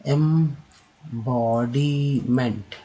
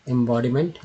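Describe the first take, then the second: First: embodiment drawn out slowly; slow syllable demo. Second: Said in the usual way. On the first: Shown as a demonstration. Teacher slowly modelling embodiment. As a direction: spell embodiment out by sound. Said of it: "next है". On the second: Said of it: "ठीक है".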